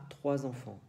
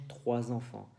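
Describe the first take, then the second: Both takes have the same delivery.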